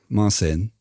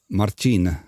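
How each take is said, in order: First: The name has an English-style pronunciation. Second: The name has its original, non-English pronunciation. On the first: "then repeat it in English" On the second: "I always say the name in their original accent and then in the original pronunciation"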